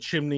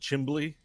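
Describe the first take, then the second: First: The word is said with an 'mn' sound. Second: The word is said with an 'mbl' sound. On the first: The speaker calls it right. "It wasn't a chimney in our house" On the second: The speaker calls it wrong. "it's a chimbly"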